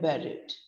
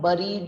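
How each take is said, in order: First: The first vowel sounds like 'bed'. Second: The first vowel sounds like 'bird'. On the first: The speaker calls it right. "हम उसको बोल रहे हैं buried" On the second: The speaker calls it wrong. "But हम buried नहीं बोल रहे हैं"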